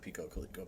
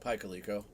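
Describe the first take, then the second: First: The first part sounds like 'peeko'. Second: The first part sounds like 'pie'. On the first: The speaker calls it wrong. "not Pico Coleco" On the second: The speaker calls it right.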